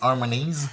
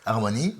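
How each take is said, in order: First: The word ends with an audible s sound. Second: The word ends without any s sound. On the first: The speaker calls it wrong. "tu dis Harmonies" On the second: The speaker calls it right. "on prononce pas le S en français"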